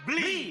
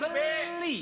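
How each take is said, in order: First: It is said as one syllable, no vowel. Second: It is said as two syllables with a vowel. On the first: The word for an older brother. The speaker calls it right. "B L I dibaca beli" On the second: The word for buying. The speaker calls it wrong. "bukan beli"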